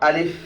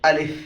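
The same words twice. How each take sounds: No difference in how they are said.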